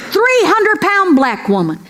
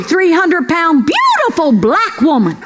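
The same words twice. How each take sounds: First: Said in the usual way. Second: Beautiful leaned on as a correction; stress on beautiful. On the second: Shown as a demonstration. Comedian correcting herself, stress on beautiful. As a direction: slip in beautiful with weight.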